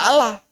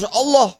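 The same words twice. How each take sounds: First: The word is given a plain Indonesian pronunciation. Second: The word is given its Arabic religious pronunciation. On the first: The speaker calls it wrong. "tidak Allah" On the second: The speaker calls it right. "Itu bacanya harus Allah"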